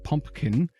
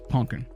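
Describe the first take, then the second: First: The second P sound is clearly pronounced. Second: The second P sound is left out. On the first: "It is not pumpkin" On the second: "I don't pronounce the other P"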